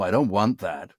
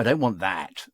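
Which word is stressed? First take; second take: want; that. First: The stress falls on the verb, "want". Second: The stress falls on the object, "that". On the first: "Americans hit verbs and not the objects" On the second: "rather we'd go"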